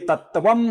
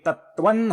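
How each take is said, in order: First: The word ends with an m sound. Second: The word ends with an n sound. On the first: The speaker calls it wrong. "ये तत्वम नहीं होगा" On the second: The speaker calls it right. "ये तत्वन होगा"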